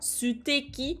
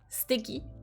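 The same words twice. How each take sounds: First: The u after the s is fully pronounced. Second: The u after the s is nearly silent. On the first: The speaker calls it wrong. "On dit pas suteki" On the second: The speaker calls it right. "mais plutôt suteki. Donc, comme s'il n'y avait pas vraiment le u"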